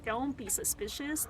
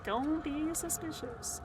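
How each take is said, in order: First: Softly murmured to self. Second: Slow, sing-song innocent tone. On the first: Sneaking past enemies, soft murmur. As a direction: say it softly under your breath. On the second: Sneaking past enemies, slow sing-song mock innocence. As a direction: stretch it out like a kid pretending innocence. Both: Pretend.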